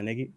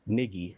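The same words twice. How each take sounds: First: The word is said quickly in passing. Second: The word is said slowly and drawn out. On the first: The speaker calls it right. "Speed it up a little bit" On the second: The speaker calls it wrong. "if you say it slowly, it sounds weird"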